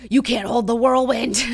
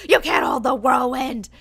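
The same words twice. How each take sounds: First: Loud, high, defiant declaration; pulling free from a grabbing man, loud and defiant; defiant retort. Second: Shouted and high, ripping away; tearing away from a grabbing man, shouting; defiant shout. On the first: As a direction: fling it back as you pull away. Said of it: "I am a hundred percent gonna say". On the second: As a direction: yell it as you tear free. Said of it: "rip away and then just be like". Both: Pretend.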